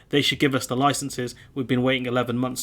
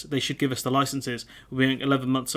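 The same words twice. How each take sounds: First: Lightly held mock French accent. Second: Said in the usual way. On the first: Quoting the French fisherman, mild French accent. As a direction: keep a hint of French on the quote. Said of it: "do a French accent". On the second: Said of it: "So he's saying".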